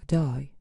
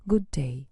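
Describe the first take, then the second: First: Australian g'day. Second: Said in the usual way. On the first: Shown as a demonstration. Teacher demonstrates the Aussie greeting, Australian accent. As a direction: say "g'day" clipped, one quick Aussie word. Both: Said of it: "Compare these examples of British and Australian English".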